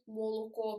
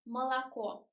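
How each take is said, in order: First: The unstressed vowels are a full round o. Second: The unstressed vowels are a reduced schwa sound. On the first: The speaker calls it wrong. "properly as we write it" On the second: The speaker calls it right. "we should pronounce it like молоко"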